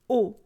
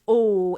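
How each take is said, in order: First: The vowel stays short and steady. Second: The vowel glides and changes shape. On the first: "And in French, it's actually a static O" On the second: "when I'm saying these in English, O, there's actually a change in the vowel sound ... it's gliding through that sound"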